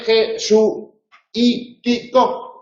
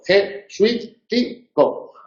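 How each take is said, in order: First: The word is said in five syllables. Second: The word is said in four syllables. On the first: "eso es una pronunciación cuidada, afectada" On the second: "Se pronuncia en cuatro golpes de voz"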